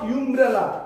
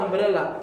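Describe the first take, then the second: First: The word begins with a 'yoo' sound. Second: The word begins with an 'uh' sound. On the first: The speaker calls it wrong. "Not" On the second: The speaker calls it right. "বাউল sound হচ্ছে আ"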